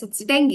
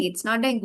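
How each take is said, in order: First: "dengue" as "DENG-gee"; correct pronunciation. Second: "dengue" as "DENG-goo"; literal mispronunciation. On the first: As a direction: end "dengue" on an ee sound. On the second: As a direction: say "dengue" with a final oo. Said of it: "go with the literal". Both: Shown as a demonstration.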